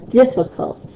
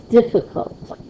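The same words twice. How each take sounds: The two takes are said the same way.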